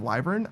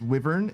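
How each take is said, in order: First: The first vowel is a long i sound. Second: The first vowel is a short i sound.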